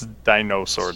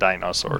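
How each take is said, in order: First: The middle vowel sounds like 'o'. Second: The middle vowel sounds like 'a'. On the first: The speaker calls it right. "It's dinosaur" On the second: The speaker calls it wrong. "not dinosaur"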